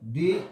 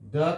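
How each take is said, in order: First: It ends in a long 'ee' vowel. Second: It ends in a short 'uh' vowel. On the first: The next word starts with a vowel sound. "Vowel sound हो तो दी उच्चारण कीजिएगा" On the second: The next word starts with a consonant sound. "अगर consonant sound हो तो द उच्चारण कीजिएगा"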